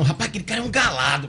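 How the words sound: It is said in a warm, admiring tone. The man is a good guy. "dependendo da sua entonação"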